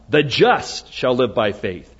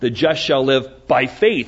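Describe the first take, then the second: First: The stress is on "the just". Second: The stress is on "by faith".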